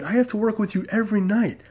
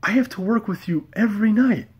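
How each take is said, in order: First: High exasperated plea. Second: High exasperated. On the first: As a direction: voice jumps up high, pleading in disbelief. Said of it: "I said". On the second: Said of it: "And I was just like". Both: Retold or imitated.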